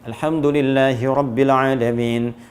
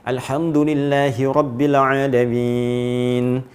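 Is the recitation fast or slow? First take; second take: fast; slow. First: It is recited quickly with shorter vowels. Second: It is recited slowly with long drawn-out vowels. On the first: "Kalau kita ingin cepat, pakai yang hadar" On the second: "Maka ambil yang empat harakat, dua detik"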